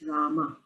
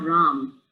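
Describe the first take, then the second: First: The name ends in an a vowel. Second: The name ends with no final vowel. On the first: The speaker calls it right. "it's Rama. ... we put a little emphasis at the end" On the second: The speaker calls it wrong. "it's also not Ram"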